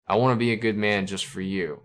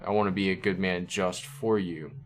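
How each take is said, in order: First: Said in the usual way. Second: "just for you" read slightly more deliberately; stress on JUST. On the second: Shown as a demonstration. Reviewer rereads the lyric to show its italics, stress on "just". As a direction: set "just" a little apart before "for you". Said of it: "So the emphasis on that word".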